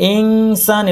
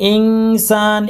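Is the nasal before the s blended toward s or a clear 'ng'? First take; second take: ng; ng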